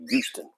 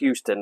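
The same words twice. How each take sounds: First: The word begins without any H sound. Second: The word begins with an audible H sound. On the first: This is how locals say it. The speaker calls it right. "They say Houston. / There's no H" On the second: This is not how locals say it. The speaker calls it wrong. "They don't say Houston"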